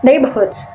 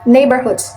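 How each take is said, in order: First: "neighborhoods" without the R, British; British non-rhotic "neighborhoods", NAY-buh-hoods; British pronunciation. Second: "neighborhoods" with the R sounded, American; American rhotic "neighborhoods", NAY-ber-hoods; American pronunciation. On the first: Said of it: "The British one is non-rhotic". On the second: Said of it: "in American is rhotic". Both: Shown as a demonstration.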